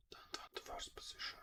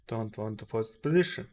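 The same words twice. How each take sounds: First: Whispered under the breath. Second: Said in the usual way. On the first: Real, not acted. Trader reminds himself not to force a trade, whispered.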